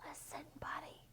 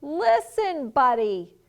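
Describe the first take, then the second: First: Very soft, voiceless whisper. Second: Loud, high-pitched call, dropping on the name; storybook parent's raised voice; yelling. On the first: Parents trying to get Buddy to listen, whispering. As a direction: whisper it slyly to get attention. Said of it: "They tried whispering". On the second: Parents trying to get Buddy to listen, yelling. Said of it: "His parents tried yelling". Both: A narrator's reading.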